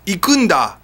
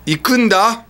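First: It is said in a confident, assertive way. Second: It is said in a confident, assertive way.

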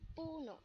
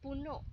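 First: The stress is on the first syllable. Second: The stress is on the last syllable. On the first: It means a tree. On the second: It means full.

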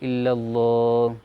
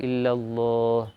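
No difference in how they are said.

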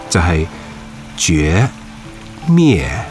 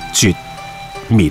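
First: The syllables end with a lingering, drawn-out tail. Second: The syllables are short and stop abruptly. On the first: "读音系有点尾巴嘅" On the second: "一发即收，干净利落"

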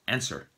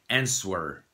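First: The word is said with no 'w' sound in the middle. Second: The word is said with a 'w' sound in the middle. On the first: It is said the way English speakers say it. The speaker calls it right. "instead of answer" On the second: It is said the way it is spelled. The speaker calls it wrong. "she was saying things like answer"

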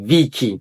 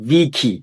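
Both takes have the same delivery.

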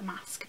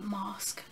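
First: The word is said in a plain accent. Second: The word is said in a posh accent. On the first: "but it's a mask" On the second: "I tried to say that in a posh accent, I'm like mask"

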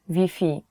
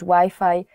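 First: Wi-Fi is pronounced the Polish way. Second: Wi-Fi is pronounced the English way. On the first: Local listeners will understand it. The speaker calls it right. "You have to change Wi-Fi to Wi-Fi" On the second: Local listeners will not understand it. The speaker calls it wrong. "people will not understand you"

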